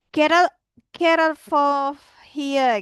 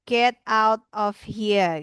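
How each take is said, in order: First: "Get out of here" dilafalkan lebur seperti "kerol fo hia"; pelafalan pidgin. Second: Said in the usual way. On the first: Shown as a demonstration. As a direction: say "Get out of here" slowly in slurred pidgin sounds. (ucapkan "Get out of here" ala pidgin, pelan dan lebur) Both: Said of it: "namanya pidgin language".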